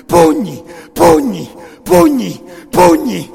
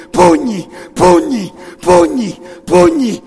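Both takes have the same delivery.

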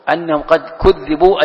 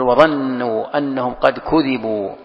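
First: كذبوا read as kuḏḏibū with the ḏ doubled; shadda reading. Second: كذبوا read as kuḏibū with a single short ḏ; light reading. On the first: Sheikh reads the verse to students in the shadda reading, doubled ḏ. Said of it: "إذا قرأناها بالتشديد". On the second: Sheikh reads the verse to students in the light reading, single ḏ. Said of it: "قراءة التخفيف". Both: Shown as a demonstration.

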